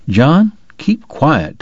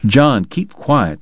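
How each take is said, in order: First: Slow, firm order; measured commanding tone. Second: Slow, firm snap; a mild snapped order. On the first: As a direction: lay down the order, slowly. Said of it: "Tom ordered". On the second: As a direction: cut him off, slowly. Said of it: "the doctor snapped". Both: A narrator's reading.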